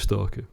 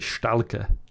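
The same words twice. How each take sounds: First: The word is pronounced in standard English. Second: The word is pronounced in a foreign-sounding way. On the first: The speaker calls it right. "realising eventually it was Stalker" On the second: The speaker calls it wrong. "he'd mispronounce every time he pronounced it Stalker"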